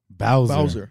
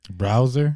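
First: No R sound follows the first B. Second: An R sound follows the first B. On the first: The speaker calls it right. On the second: The speaker calls it wrong.

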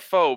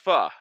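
First: The word sounds like 'faux'. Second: The word does not sound like 'faux'. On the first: The speaker calls it wrong. "I might be saying it wrong, but I just call it pho" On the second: The speaker calls it right. "pho is the correct way of pronouncing it"

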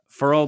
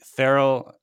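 First: The name is said as one short syllable. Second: The name is said with two full syllables. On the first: The speaker calls it right. "I believe he pronounces it Furl" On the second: The speaker calls it wrong. "I always say his name wrong"

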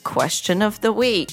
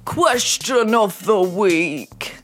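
First: It is said in her normal voice. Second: It is said in a special put-on voice.

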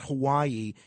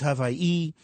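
First: It is said the usual mainland English way. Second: It is said the local island way. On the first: The speaker calls it wrong. "It's not" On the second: The speaker calls it right. "that's how they pronounce it there"

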